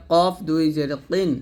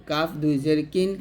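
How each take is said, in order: First: Heavy, back-of-throat Q in কফ and কিন; thick qof. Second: Light K in কাফ and কিন; thin kaf. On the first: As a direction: say কফ thick, not like a thin kaf. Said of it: "অবশ্যই মোটা করতে হবে". (কফ মোটা উচ্চারণে) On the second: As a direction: say কিন thinly, without the heavy qof. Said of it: "আর কাফটা পাতলা হবে এরকম". (কাফ পাতলা উচ্চারণে) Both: Shown as a demonstration.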